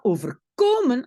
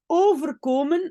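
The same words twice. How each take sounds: First: The stress is on the last part. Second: The stress is not on the last part. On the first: Something befalls or happens to me. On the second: To make the effort of travelling over.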